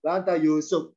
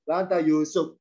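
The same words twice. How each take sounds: First: The phrase is said at a low pitch. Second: The phrase is said at a low pitch.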